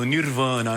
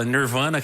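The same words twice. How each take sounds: First: The name is said in a Portuguese-style way. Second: The name is said in an English-like way. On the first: This is how people say it in one city. "Aqui em São Paulo é meu Nirvana" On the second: This is how people say it in another city. "que é o mais próximo do inglês"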